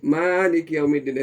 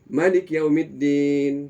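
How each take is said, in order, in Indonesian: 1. Vokal pertama pada Malik panjang. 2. Vokal pertama pada Malik pendek. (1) "Kalau dia baca masih Malik Yaumiddin" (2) "dia baca pendek"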